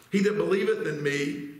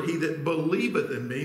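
First: Said in the usual way. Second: "believeth" made the most prominent word; stress on BELIEVETH. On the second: Shown as a demonstration. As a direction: lean on "believeth" as the key word. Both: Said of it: "notice that word".

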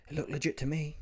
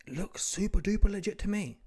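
First: Said in the usual way. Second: "super duper" pitched up high; stress on SUPER DUPER. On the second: Real, not acted. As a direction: play up "super duper" for emphasis. Intensified repeat of previous claim.

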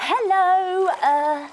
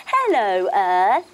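First: High, bright greeting; cheery hello. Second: Louder, falling hello; hello to the earth. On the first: Yoga leader greeting the earth, high and bright. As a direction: sing out hello to the ground. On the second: Yoga leader greeting the earth, louder. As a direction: greet the ground firmly. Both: Pretend. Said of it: "we say hello to the earth".

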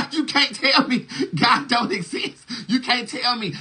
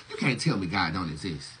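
First: Higher, laughing through the words; giggling high disbelief. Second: Said in the usual way. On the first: Shown as a demonstration. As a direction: crack up while insisting You can't tell me God don't exist. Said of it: "repeated line said laughing". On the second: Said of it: "repeated line, second laughing".

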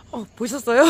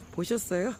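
First: Shaken excited. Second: Said in the usual way. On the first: Real, not acted. Just saw a snake.

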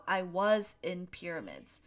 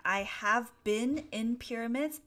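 First: "was" stressed as the contrast; careful reading with "was" picked out; quoted example. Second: "have been" set out clearly; careful reading with "been" picked out; quoted example. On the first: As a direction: read as an example, weight on "was". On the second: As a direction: read as an example, weight on "been". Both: Shown as a demonstration. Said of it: "What is the difference between".

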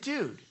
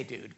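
First: Said in the usual way. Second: Dude dropped low and quiet; muttered aside. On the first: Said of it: "that's my paraphrase". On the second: Shown as a demonstration. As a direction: toss off dude under your breath. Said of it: "but he didn't say".

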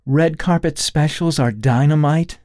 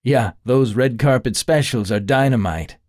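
First: Mock-incredulous repeat, higher and louder; mocking echo. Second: With a grin. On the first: Allie mocking Kyle's flattery, incredulous. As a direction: throw his line back at him. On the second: Acted. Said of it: "Kyle said with a grin".

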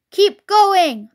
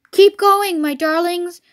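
First: High, loud order to workmates; shout. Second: Mildly acted breathless urging; high, loud start, easing on the endearment; panting. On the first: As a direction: shout across to the other drivers. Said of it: "shouted to Bunce and Bean". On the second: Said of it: "panted Mister Fox". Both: A narrator's reading.

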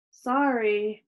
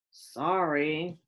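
First: Mildly curt, grudging sorry; barked apology. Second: Low, grudging grumble; grumbled apology. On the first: Max forced to apologize to Chloe, barking. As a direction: bark it with little remorse. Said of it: "Max barked". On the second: Max told to sound friendly, grumbling. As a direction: grumble it reluctantly. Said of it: "Max grumbled". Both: A narrator's reading.

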